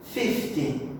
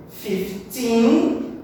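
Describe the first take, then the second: First: "fifty" lower and softer, falling off; FIF-ty, front-stressed. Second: Put-on "Fifteen" with a long, strong, rising TEEN; fif-TEEN, weight on the end; stress on TEEN. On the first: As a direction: stress the start of "fifty", drop away low. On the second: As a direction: punch and lift the end of "Fifteen". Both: Shown as a demonstration. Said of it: "a stressed syllable, a mesma coisa".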